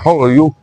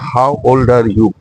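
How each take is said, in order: First: The vowels are reduced and run together. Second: Every vowel is said fully and clearly. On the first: "they reduce their vowel sounds like this" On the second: "we say"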